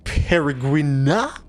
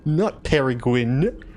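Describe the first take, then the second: First: Slow Peregrina with an ah ending; mock pronunciation. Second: Slow Peregrine ending in gwin; slow contrast pronunciation. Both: Shown as a demonstration.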